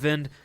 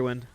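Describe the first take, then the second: First: The name starts with a V sound. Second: The name starts with a W sound. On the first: The speaker calls it wrong. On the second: The speaker calls it right.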